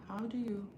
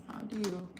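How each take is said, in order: No difference in how they are said.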